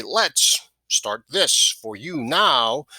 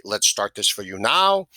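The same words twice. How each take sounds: First: Very slow, "Let's" set apart by a pause, weight on "now"; trial phrasing. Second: Said in the usual way. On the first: Shown as a demonstration. Sales trainer trying out ways to say the phrase, slow and deliberate. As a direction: draw out "Let's start this for you now" word by word. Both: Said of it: "However it works in your voice".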